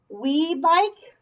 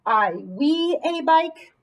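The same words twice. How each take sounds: First: Said in the usual way. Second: Slow trial read. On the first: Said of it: "doesn't really make sense". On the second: Shown as a demonstration. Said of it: "That doesn't make sense".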